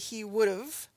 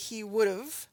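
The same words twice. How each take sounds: First: It is said quickly, 'have' reduced like 'of'. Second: It is said quickly, 'have' reduced like 'of'.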